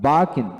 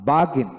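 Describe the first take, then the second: No difference in how they are said.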